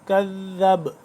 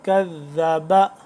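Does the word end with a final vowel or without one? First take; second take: without one; final vowel. First: The word ends on the consonant, no vowel. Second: The word ends with a final 'a' vowel. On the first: The reader stops on this word. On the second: The reading continues without stopping.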